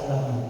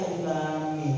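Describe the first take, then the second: First: "Alam Lam" read as an ordinary word; misread letters. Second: Said in the usual way. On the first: Shown as a demonstration. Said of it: "Kenapa nggak dibaca Alam Lam". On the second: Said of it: "Kenapa dibacanya Alif Lam Mim".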